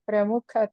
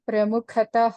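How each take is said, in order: First: The word ends on a plain vowel. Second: The word ends with a breathy h sound. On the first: The speaker calls it wrong. "మీరు ప్రముఖత అంటున్నారు" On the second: The speaker calls it right. "ప్రముఖతః అనాలి"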